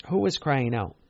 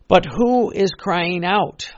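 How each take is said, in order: First: Said in the usual way. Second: Loud, slow and high; emphatic cry. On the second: Real, not acted. Preacher calling out slowly and loudly to the congregation. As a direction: call it out slowly to the crowd.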